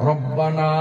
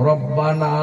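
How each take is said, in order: The two takes are said the same way.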